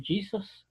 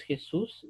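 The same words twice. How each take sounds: First: "Jesus" said the English way, JEE-zus, stress on the first syllable. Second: Said in the usual way. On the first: Shown as a demonstration. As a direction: give "Jesus" its English sounds and stress, not Spanish. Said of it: "en inglés no es Jesús". ("Jesus" pronunciado en inglés, acento en la primera sílaba) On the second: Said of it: "ya cambió inclusive la entonación".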